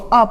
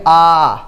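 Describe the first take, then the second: First: The vowel is held only briefly. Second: The vowel is drawn out for longer. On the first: "इसको आ पढ़ेंगे" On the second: "लंबा करके पढ़ेंगे"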